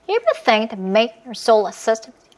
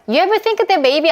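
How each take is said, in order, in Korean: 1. 내용어는 강하게, 기능어는 약하게 줄여서 말해요. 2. 모든 단어가 비슷한 무게로 나오고, 리듬이 없어요. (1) "빨간색만 상대 귀에다가 꼽아준다고 생각하면" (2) "리듬을 타지 않고 빠르게 말을 한다 그러면"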